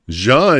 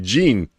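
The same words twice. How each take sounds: First: The name is said with a French pronunciation. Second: The name is said with an English pronunciation. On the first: "Jean is French also" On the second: "In English, it would be Jean"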